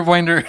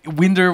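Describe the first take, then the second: First: "Winder" rhyming with finder; long-i "winder". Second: "Winder" starting like the wind that blows; short-i "winder". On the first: Streamer comparing two pronunciations for chat, long i in "Winder". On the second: Streamer comparing two pronunciations for chat, short i in "Winder". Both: Shown as a demonstration. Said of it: "American English".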